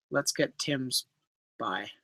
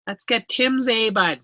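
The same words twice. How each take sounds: First: Said in the usual way. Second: Put-on Canadian accent, higher than usual. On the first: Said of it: "You forgot the A in the talk". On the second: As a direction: say it like a hammed-up Canadian. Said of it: "No, I said A, bud".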